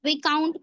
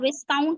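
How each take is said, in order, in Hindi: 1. "k" से पहले कोई "s" ध्वनि नहीं है। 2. "k" से पहले "s" ध्वनि सुनाई देती है। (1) "एस साइलेंट हो जाएगा" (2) "नहीं"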